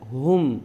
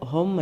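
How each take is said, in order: First: The vowel sounds like a short u. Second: The vowel sounds like an open o. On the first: The speaker calls it right. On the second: The speaker calls it wrong. "ഹൊം അല്ല"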